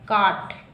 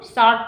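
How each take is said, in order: First: The word begins with a k sound. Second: The word begins with an s sound. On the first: The speaker calls it right. "इसको का पढ़ रहे हैं" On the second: The speaker calls it wrong. "ना कि हम इसको short पढ़ रहे हैं"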